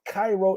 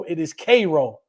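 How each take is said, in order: First: Cairo said "KAI-ro", as in Egypt; rejected pronunciation. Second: Cairo said "KAY-ro", correcting the outsider; locals' correction. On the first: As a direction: say Cairo with an "eye" vowel. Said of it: "It's not". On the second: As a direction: say Cairo with an "ay" vowel. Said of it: "so they pronounce it Cairo". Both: Retold or imitated.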